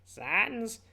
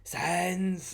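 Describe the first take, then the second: First: It is said in a put-on Papyrus voice. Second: It is said in his normal voice.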